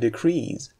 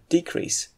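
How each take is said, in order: First: The stress is on the second syllable. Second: The stress is on the first syllable. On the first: It is used as a verb. "you should stress the second syllable when using it as a verb" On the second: It is used as a noun. "and decrease"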